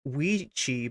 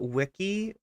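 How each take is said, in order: First: The middle consonant sounds like 'ch'. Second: The middle consonant sounds like 'k'. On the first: The speaker calls it wrong. "Not Weechi" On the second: The speaker calls it right. "but Wiki"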